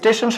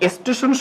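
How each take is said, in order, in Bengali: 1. এটি কোনো অতিরিক্ত স্বরধ্বনি ছাড়াই উচ্চারিত হয়। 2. এটি একটি অতিরিক্ত ছোট i স্বরধ্বনি দিয়ে উচ্চারিত হয়। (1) "একটা শব্দ আছে স্টেশন" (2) "কেউ কেউ অনেক সময় উচ্চারণ করে স্টেশন ... একটা অতিরিক্ত অংশ আসছে ... রস্বই"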